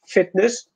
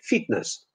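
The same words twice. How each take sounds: First: The first vowel sounds like native English. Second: The first vowel sounds like the Polish i. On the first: The speaker calls it right. "Instead of fitness" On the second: The speaker calls it wrong. "Polish people say fitness"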